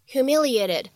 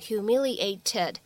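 First: The t is said as a quick flap. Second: The t is said as a clear stop. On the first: The speaker calls it right. "我们会读成humiliated" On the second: The speaker calls it wrong. "我们在美式发音当中不用读成humiliated"

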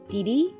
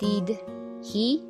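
First: The h sound is dropped, linked as one word. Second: The h sound of he is fully pronounced.

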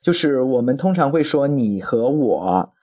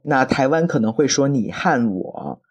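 First: 和 is said the standard mainland way. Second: 和 is said the Taiwan Mandarin way.

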